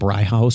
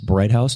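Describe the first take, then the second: First: The first syllable sounds like 'bry'. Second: The first syllable sounds like 'bright'. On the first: The speaker calls it wrong. "not Bry House" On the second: The speaker calls it right. "I believe that is Bright House"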